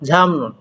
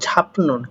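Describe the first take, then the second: First: An m sound comes before the n. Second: A p sound comes before the n. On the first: The speaker calls it right. "কিন্তু হলো ঝামনুন" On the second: The speaker calls it wrong. "হওয়ার কথা ছিল ঝাপনুন"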